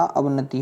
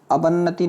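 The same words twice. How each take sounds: First: अवनति said "ab-nati", single n; correct pronunciation. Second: अवन्नति said "a-ban-nati", long doubled n; wrong pronunciation. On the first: Teacher corrects students, अवनति as "ab-nati". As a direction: keep one n in अवनति. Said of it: "क्या होता?". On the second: Teacher shows the error, अवन्नति as "a-ban-nati". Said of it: "अवन्नति नहीं होता बच्चे". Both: Shown as a demonstration.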